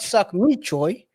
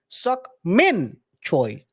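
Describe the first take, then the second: First: The first name ends without an n sound. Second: The first name ends with an n sound. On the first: It sounds like a crude phrase. The speaker calls it wrong. "No, not Suck Me Choi" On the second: It is the person's real name. The speaker calls it right.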